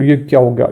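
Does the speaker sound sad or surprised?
surprised. It is said in a surprised, astonished tone. Something unexpected has happened. "अपने को आश्चर्यचकित होना है"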